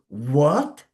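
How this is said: It sounds shocked and disbelieving. The listener cannot believe what was said. "you don't want to believe it. It's something unbelievable"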